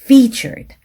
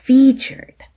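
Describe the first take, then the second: First: The vowel is drawn out long. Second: The vowel is drawn out long.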